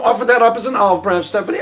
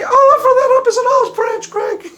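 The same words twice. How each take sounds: First: Said in the usual way. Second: High squeaky mock-girl echo, laughing; Stephanie voice. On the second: Stephanie parrots her coach's line in a high squeaky voice. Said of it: "my Stephanie imitation".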